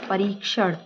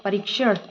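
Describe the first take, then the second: First: "परीक्षण" with long "reek"; correct long i. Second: "परीक्षण" with short "rik"; wrong short i. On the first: Teacher reads the right form, long-i "परीक्षण". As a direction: stretch री in "परीक्षण". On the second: Teacher reads the wrong form, short-i "परीक्षण". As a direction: clip री in "परीक्षण". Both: Shown as a demonstration. Wrong then right spelling shown.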